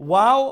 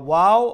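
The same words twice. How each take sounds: No difference in how they are said.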